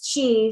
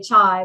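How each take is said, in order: First: The vowel sounds like 'ee'. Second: The vowel sounds like 'eye'. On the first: The speaker calls it right. "but it's qi, C H E E" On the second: The speaker calls it wrong. "which I always want to say chai"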